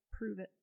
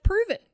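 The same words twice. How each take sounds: First: Low, quiet retold dare; quietly daring, very matter-of-fact; understated challenge. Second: High, loud retold dare; defiant dare, pitched right up; forceful challenge. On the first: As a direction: drop it low and soft, deadpan. Retold challenge to accusing wife. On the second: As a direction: throw it out loud and cocky.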